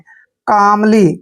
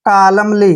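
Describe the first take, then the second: First: The L is silent, with no L sound. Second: The L sound is pronounced before the M. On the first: The speaker calls it right. "एल silent होता है" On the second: The speaker calls it wrong. "जो कि गलत है"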